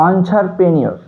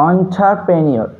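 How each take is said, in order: The two takes are said the same way.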